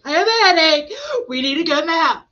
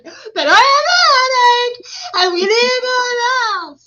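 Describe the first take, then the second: First: Put-on high, loud child whine; dramatic mock complaint, pitched up; Selah being dramatic. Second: Very high, loud mock wail; hammed-up tearful whine, much higher and louder; Selah wailing dramatically. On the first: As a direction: imitate a little girl announcing her suffering. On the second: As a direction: imitate a child's over-the-top meltdown. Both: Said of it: "She's over there all dramatic".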